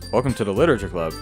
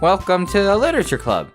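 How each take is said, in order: First: The voice sounds like a man. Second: The voice sounds like a girl.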